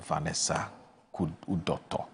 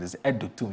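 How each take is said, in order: First: The surname is pronounced roughly as Udoto. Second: The surname is pronounced roughly as Edutum. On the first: The speaker calls it wrong. "I hope I got that correctly" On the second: The speaker calls it right. "I've just been corrected"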